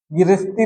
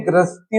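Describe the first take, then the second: First: गृहस्थी said "girasti"; wrong form. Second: गृहस्थी said "grasti", g-r joined; correct form. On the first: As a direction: split the opening of गृहस्थी into "gi-ra". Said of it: "गृहस्थी नहीं". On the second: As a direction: open गृहस्थी on a tight "gr". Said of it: "गृहस्थी होगा". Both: Shown as a demonstration.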